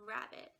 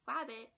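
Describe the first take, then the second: First: The word begins with an R sound. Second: The word begins with a W sound. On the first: The speaker calls it right. "instead of rabbit" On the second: The speaker calls it wrong. "a child may say wabbit"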